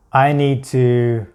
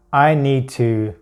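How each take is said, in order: Both takes have the same delivery.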